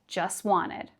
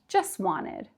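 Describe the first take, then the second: First: The T sound in just is dropped. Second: The same.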